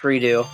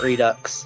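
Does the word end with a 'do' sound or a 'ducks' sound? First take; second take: do; ducks. First: The word ends with a plain 'do' sound. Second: The word ends with a 'ducks' sound. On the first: The speaker calls it right. "That's pronounced redo" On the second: The speaker calls it wrong. "not redux"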